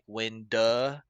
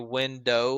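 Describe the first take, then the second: First: It is said in a regional Southern accent. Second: It is said in a neutral accent.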